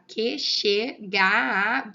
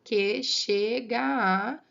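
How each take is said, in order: First: "Que, che, ga, a" split into separate, punched syllables. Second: "que chega a" very slow, the last a's in one held sound; joined vowels. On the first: Teacher showing the verse's division, syllable by syllable. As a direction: sound out "Que, che, ga, a" loudly, piece by piece. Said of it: "vamos reparar como é que tá?". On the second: Teacher showing there is no separation, joined vowels. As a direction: draw out "que chega a" with no break before a. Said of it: "eu não tenho essa separação". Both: Shown as a demonstration.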